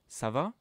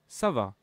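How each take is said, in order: First: The pitch rises at the end. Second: The pitch stays level at the end. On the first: It asks how someone is. "with an intonation that goes up" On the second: It states that one is fine. "with a neutral intonation"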